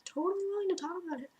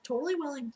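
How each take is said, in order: First: "totally willing" jumps high and runs fast; eager mock agreement. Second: Said in the usual way. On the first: To the host mother, the eager yes comes out high and fast. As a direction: gush it out, high and quick, mock-keen. Repeats phrase, second much higher.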